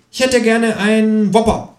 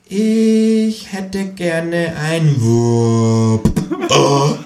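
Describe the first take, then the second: First: High, slow, prim kangaroo ordering. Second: Very slow, high, each word spelled out through a laugh; repeated for dummies. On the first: Kangaroo orders a Whopper at McDonald's, high and slow. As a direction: order politely in a high put-on voice. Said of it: "sagt das Känguru". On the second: Kangaroo repeats the order very slowly for the cashier. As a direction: say it painfully slowly as if to an idiot. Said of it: "wiederholt das Känguru für Dumme". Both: Acted.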